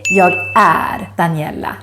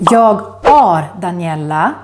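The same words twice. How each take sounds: First: The vowel in 'är' sounds like neither word. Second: The vowel in 'är' sounds like English 'are'. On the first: The speaker calls it right. "the one you should say" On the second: The speaker calls it wrong. "don't pronounce it as are"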